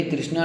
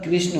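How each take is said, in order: First: कृष्णा with a long aa at the end; wrong form. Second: कृष्ण ending short, without the long aa; correct form. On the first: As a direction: stretch the final vowel of कृष्णा to aa. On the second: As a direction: say कृष्ण with a light, short final vowel. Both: Shown as a demonstration. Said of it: "ये कृष्णा नहीं होता".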